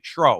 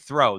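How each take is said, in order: First: The word begins with a plain t sound. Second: The word begins with a th sound. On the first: "they say tro" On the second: "They don't say throw"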